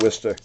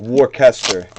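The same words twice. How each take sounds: First: The name is said in a shortened form. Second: Every letter of the spelling is pronounced. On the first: "it's pronounced" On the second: "It literally like looks like"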